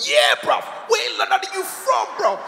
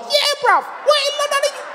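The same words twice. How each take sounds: First: Imitated gang challenge, rising high; high-pitched mock youth challenge; youths joining in. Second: Put-on very high, squeaky little-kid challenge; mock small child joining the gang; five-year-old kid. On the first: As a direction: chime in as another cocky youth. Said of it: "They all joined". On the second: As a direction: squeak it like a tiny tough kid. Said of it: "They had a little kid about five years old".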